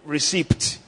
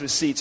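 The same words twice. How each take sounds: First: A P sound is pronounced in the word. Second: No P sound is pronounced in the word. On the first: The speaker calls it wrong. "some people say receipt" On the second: The speaker calls it right. "I think it's pronounced receipt, right? The P is silent"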